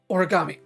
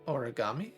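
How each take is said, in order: First: The name is said with strong emotion. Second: The name is said hesitantly and flatly.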